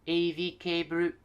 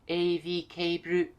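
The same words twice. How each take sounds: First: It is said with Japanese loanword pronunciation. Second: The same.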